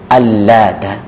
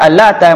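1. Bunyi t-nya dobel dan ditahan lebih lama. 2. Bunyi t-nya tunggal dan pendek. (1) "kalau di tasydid" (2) "Sementara kalau dibaca Al-Lata"

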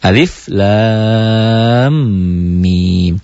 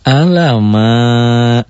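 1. Setiap huruf diucapkan terpisah dengan namanya. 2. Hurufnya disambung menjadi satu kata. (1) "Dibacanya dengan cara dieja" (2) "Jangan alama"

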